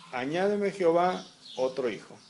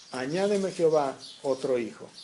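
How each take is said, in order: Both takes have the same delivery.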